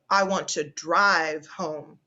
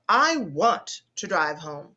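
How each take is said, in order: First: The stress falls on the word drive. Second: The stress falls on the word want. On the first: The speaker wants to take the car, not walk or get a taxi. "the third example emphasizes the word drive" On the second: The speaker is insisting on going. "The next one emphasizes the word want"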